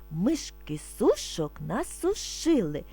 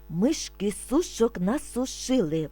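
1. Вимовляється повільно й спокійно. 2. Вимовляється помірно швидше. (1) "Спочатку ми будемо вимовляти спокійно, не спіша" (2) "А тепер трошки швидше"

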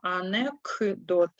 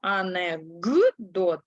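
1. Приголосний перед d звучить глухо, як k. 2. Приголосний перед d звучить дзвінко, як g. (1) "а пишемо анекдот" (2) "К глухий, але перед дзвінким Д він вимовляється дзвінко. Тому ми кажемо анекдот"

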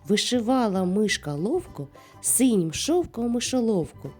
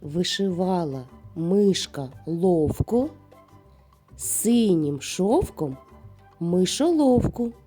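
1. Її вимовляють найшвидшим темпом. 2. Її вимовляють повільно й обережно. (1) "А тепер давай іще швидше" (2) "не поспішаючи, повторюйте за мною"

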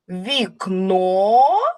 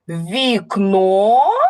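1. Слово вимовляють як запитання. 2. Слово вимовляють як запитання.

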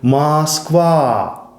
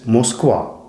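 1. Перший голосний — розтягнутий відкритий 'a'. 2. Перший голосний — округлений 'o'. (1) "розтягують голосний звук «а», кажуть «Москва»" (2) "замість «Москва»"

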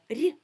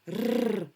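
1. Звук Р м'який, пом'якшений. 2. Звук Р твердий, не пом'якшений. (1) "А коли м'який, тоді ми чуємо рі" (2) "Коли ми чуємо твердий, тоді звук вимовляється так"

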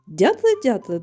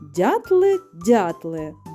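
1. Вона вимовляється у звичайному, трохи швидшому темпі. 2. Її вимовляють повільно й чітко.

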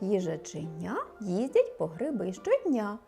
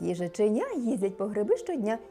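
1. Рядок вимовляють у повільнішому темпі. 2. Рядок вимовляють у швидшому темпі.

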